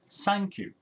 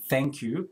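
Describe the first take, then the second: First: The first word begins with an S sound. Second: The first word begins with a TH sound. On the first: "maybe they replace that sound with s" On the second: "thank you becomes"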